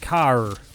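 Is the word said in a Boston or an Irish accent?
Irish. The word is said in an Irish accent. "the Irish accent would be like car"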